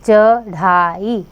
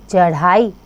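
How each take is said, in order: First: चढ़ाई said slowly, each syllable apart; teacher spelling out चढ़ाई by sound. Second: Said in the usual way. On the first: Shown as a demonstration. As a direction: break चढ़ाई into slow syllables.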